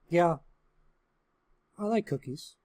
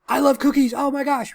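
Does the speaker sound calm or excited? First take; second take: calm; excited. First: It sounds calm and relaxed. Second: It sounds excited and eager.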